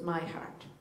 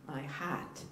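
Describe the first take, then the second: First: Said in the usual way. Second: Boston accent, "heart" said with the r dropped. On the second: Shown as a demonstration. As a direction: say "heart" slowly and softly the Boston way, like "haht". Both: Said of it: "that's my Boston accent".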